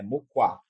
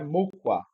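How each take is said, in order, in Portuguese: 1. O acento tônico está na segunda sílaba. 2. O acento tônico está na primeira sílaba. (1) "é mukwa. Então nós temos o acento tônico na segunda sílaba" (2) "não é mukwa"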